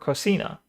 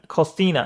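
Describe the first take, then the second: First: The middle c sounds like s. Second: The middle c sounds like th. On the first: This is how it is said in Mexico. "in Mexico, it's pronounced with an S" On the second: This is how it is said in Spain. "In Spain, the C in cocina is pronounced with a th"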